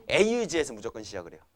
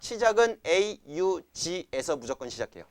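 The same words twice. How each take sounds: First: Said in the usual way. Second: 시작은 punched, the whole rule spoken slowly and deliberately; slow stressed rule. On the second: Shown as a demonstration. Teacher to class, dictating the rule slowly with stress on 시작은. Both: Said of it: "뭐에 시작한다고?".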